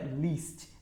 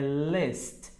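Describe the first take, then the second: First: The vowel is a long 'ee' sound. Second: The vowel is a short 'i' sound. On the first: The speaker calls it wrong. "Não é list" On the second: The speaker calls it right. "é list"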